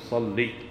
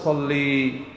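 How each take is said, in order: First: The word ends in a short 'i' vowel. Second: The word ends in a long 'ee' vowel. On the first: It is the plain command with the final ya dropped. The speaker calls it right. "تقول صلي" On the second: It addresses a female, as a feminine command. The speaker calls it wrong. "ما تقول صلي"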